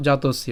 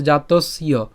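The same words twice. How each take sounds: First: জাতস্য run together as one word; joined pronunciation. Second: জাতস্য with the final "ya" split off after the s; split pronunciation. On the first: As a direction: join "jatos" and "iya" in জাতস্য without a break. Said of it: "আমরা একসাথে উচ্চারণ করব". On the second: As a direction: close জাতস্য on "s", then say "iya" separately. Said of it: "জফলার উচ্চারণটাকে আমরা আলাদা উচ্চারণ করতে পারি". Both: Shown as a demonstration.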